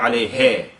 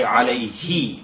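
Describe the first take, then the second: First: "alayhe" with the final vowel cut to an eh; a lazy, cut-off "alayhe"; wrong cut kasra. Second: "alayhi" ending in a full, clear I sound; correct kasra. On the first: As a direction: slur the ending of "alayhe" into eh. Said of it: "not alayhe". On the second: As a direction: finish "alayhi" on a clean, short ee. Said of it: "If it was alayhi with a kasra". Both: Shown as a demonstration.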